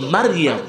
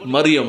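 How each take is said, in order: First: The name begins with 'Ma' and has long vowels. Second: The name begins with 'Mo' and has short vowels. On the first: The speaker calls it right. "শব্দটা হলো মারিয়াম" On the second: The speaker calls it wrong. "আমরা বলি কি মরিয়ম না"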